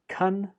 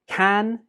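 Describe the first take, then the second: First: The word has a reduced, weak vowel. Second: The word has a full, clear vowel.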